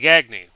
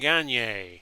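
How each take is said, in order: First: The name is pronounced the English way. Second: The name is pronounced the French way. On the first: "some would say" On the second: "I like to use the French uh, pronunciation"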